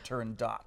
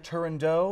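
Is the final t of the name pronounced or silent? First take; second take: pronounced; silent. First: The final t sound is clearly pronounced. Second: The final t sound is silent. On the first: "or is the T hard, like a Turandot?" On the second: "am I pronouncing it correctly"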